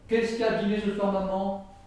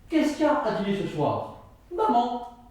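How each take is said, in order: First: The whole sentence is said on one flat pitch. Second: Maman follows as a separate, answering phrase. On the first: It has no clear meaning. "il n'y a aucune intonation" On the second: The mother herself is the dinner. "Si je prends une autre intonation"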